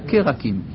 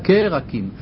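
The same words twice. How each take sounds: First: A short vowel follows the first consonant. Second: The same.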